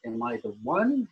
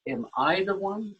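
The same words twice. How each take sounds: First: "one" stressed with a question rise. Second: "the" lifted and leaned on in "am I the one?"; stress on THE. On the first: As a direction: land the weight on "one", rising. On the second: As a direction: push the word "the" up. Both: Shown as a demonstration. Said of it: "every time you emphasize a different, uh, word".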